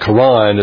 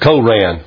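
First: The word is said the newer, recommended way. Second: The word is said the older, schoolbook way. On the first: This is the currently accepted pronunciation. "the proper way you're supposed to pronounce that" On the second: This is the pronunciation taught in the past. "when I went to school, they told us it was the Koran"

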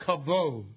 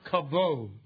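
First: The middle consonant is a V sound. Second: The same.

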